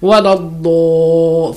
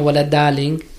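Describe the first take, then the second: First: The d sound is heavy with a full mouth. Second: The d sound is light and thin. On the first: The speaker calls it right. "Full mouth" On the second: The speaker calls it wrong. "It's not wala darling"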